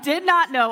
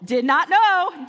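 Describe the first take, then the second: First: Louder, "not" punched, quick fall; mock stunned, leaning on "not"; stress on not. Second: Louder, slow, "know" stretched and falling; mock stunned, leaning on "know"; stress on know. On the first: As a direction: hit the word "not" hard. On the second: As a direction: drag out "know" in mock shock. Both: Stunned reply to uncle.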